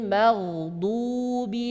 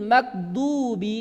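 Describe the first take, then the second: First: The consonant is a flowing throaty gh sound. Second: The consonant is a hard g sound. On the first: The speaker calls it right. "Gha, tebal, suara berjalan dan enak ya keluarnya" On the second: The speaker calls it wrong. "ada yang membaca ghain itu dengan suara G"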